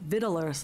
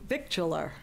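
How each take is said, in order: First: No 'k' sound is heard before the 't'. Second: A 'k' sound is pronounced before the 't'. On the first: The speaker calls it right. "Silent C" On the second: The speaker calls it wrong. "that is not the way you pronounce that"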